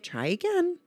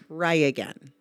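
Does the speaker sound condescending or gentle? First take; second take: gentle; condescending. First: It is said in a gentle, friendly tone. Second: It is said in a curt, condescending tone. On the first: The request to repeat is meant kindly. The speaker calls it right. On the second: The request to repeat belittles the listener. The speaker calls it wrong.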